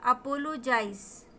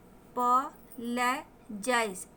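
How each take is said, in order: First: Said in the usual way. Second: "अपोलोजाइज" slowly in pieces: अ-पॉ-ले-जाइज; sounded out. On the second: Shown as a demonstration. Teacher breaking down a new word for learners, syllable by syllable. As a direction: separate each syllable of "अपोलोजाइज" with pauses.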